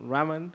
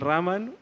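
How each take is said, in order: First: The name is pronounced with English sounds. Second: The name is pronounced with Spanish sounds.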